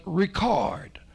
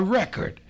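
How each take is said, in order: First: REcord stressed on the first syllable, whispered; noun record. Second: ReCORD stressed on the second syllable, whispered; verb record. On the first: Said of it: "not only register, but record". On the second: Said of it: "or record". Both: Shown as a demonstration.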